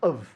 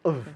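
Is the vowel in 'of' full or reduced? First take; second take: reduced; reduced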